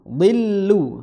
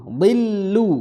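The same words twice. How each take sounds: Both takes have the same delivery.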